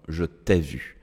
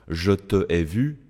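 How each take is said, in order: First: The vowel of te is dropped and joined on. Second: The vowel of te is kept before ai. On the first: The speaker calls it right. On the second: The speaker calls it wrong.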